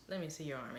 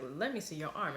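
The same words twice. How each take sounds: First: Said in the usual way. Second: Louder, firmer second ask; insistent repeat. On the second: Retold or imitated. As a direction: press the demand harder. Mac repeats the demand, insisting.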